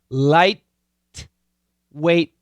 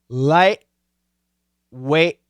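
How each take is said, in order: First: The T is released with air. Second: The T is stopped in the throat. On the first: The speaker calls it wrong. "I don't say light, weight. I don't do that" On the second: The speaker calls it right. "with a glottal stop"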